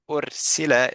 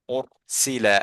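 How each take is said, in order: First: The r is pronounced light, with a thin sound. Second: The r is pronounced heavy, with a full sound. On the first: The speaker calls it wrong. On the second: The speaker calls it right.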